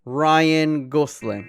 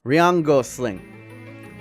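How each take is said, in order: First: The name is said very fast, run together. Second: The name is said slowly, word by word.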